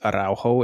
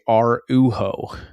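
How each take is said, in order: First: The middle of the name has an 'ow' sound. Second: The middle of the name lacks an 'ow' sound. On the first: The speaker calls it right. "It makes an ow kind of sound" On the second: The speaker calls it wrong. "the British announcers say Araujo"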